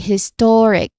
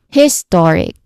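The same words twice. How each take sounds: First: The stress is on the second syllable. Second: The stress is on the first syllable. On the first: The speaker calls it right. "The perfect one would be historic, stress on the second syllable" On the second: The speaker calls it wrong. "putting the stress on the first syllable"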